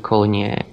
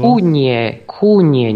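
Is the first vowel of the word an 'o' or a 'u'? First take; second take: o; u. First: The first vowel sounds like 'o'. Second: The first vowel sounds like 'u'. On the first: This is the standard form. The speaker calls it wrong. "nie konie" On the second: This is the local dialect form. The speaker calls it right. "Kunie, nie konie"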